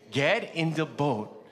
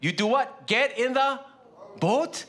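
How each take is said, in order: First: Slow reading. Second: Commanding call. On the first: Shown as a demonstration. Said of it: "Told them, he told them". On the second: Retold or imitated. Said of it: "he told them".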